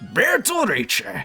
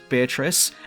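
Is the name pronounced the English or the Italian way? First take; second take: Italian; English. First: The name is said with Italian pronunciation. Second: The name is said with English pronunciation. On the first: The speaker calls it wrong. "and not Beatrice, because that way always annoys me" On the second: The speaker calls it right. "who I'm going to refer to as Beatrice"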